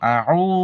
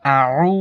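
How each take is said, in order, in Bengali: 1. স্বরধ্বনিটি ছোট করে রাখা হয়। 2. স্বরধ্বনিটি লম্বা করে টানা হয়। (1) "এখানে কিন্তু লম্বা হবো না" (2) "এরকম লম্বা হবো"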